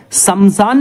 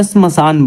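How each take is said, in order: First: शमशान as two beats, "samsaan"; wrong शमशान, no cluster at the start; mispronunciation. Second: Said in the usual way. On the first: Shown as a demonstration. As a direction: say शमशान high, as sam-saan. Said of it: "शमशान नहीं होता". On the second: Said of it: "श्मशान बोलते हैं उसे".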